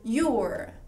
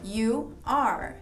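First: The two words are contracted into one. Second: The two words are said in full.

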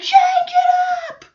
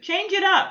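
First: The phrase is screamed loudly and forcefully. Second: The phrase is said quietly, without force. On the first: The speaker calls it right. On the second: The speaker calls it wrong.

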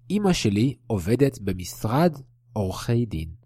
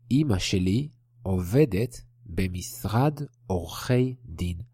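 First: The sentence is read at a normal pace. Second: The sentence is read at a slow pace.

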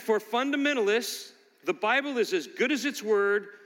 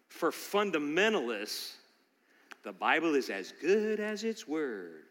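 First: It is read in a plain, neutral tone. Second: It is read in a mocking, dismissive tone.

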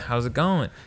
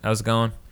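First: It is said with extra inflection and warmth. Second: It is said flatly, as a routine pleasantry.

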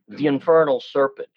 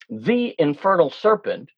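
First: 'The' runs into 'infernal' with a gliding link. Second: 'The' is sounded as a full separate syllable. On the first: The speaker calls it right. "what we'll do is probably put a glide in" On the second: The speaker calls it wrong. "you don't say the infernal serpent"

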